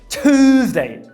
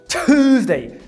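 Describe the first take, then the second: Both takes have the same delivery.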